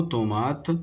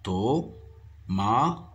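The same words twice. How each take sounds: First: Said in the usual way. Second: "Tomate" as to... ma... te, evenly spaced; split into syllables. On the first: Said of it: "Le mot tomate". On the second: Shown as a demonstration. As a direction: say "Tomate" in three isolated beats. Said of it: "contient trois syllabes".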